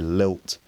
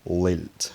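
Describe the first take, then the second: First: The first L is clear and the final L dark. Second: The first L is dark and the final L clear. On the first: The speaker calls it right. "I would say lilt" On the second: The speaker calls it wrong. "I would never say lilt. that would sound strange"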